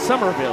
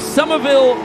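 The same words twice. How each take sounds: First: It is said with a plain, unaccented pronunciation. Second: It is said with a Boston-style accent. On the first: The speaker calls it right. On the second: The speaker calls it wrong. "Kind of Boston accented that one"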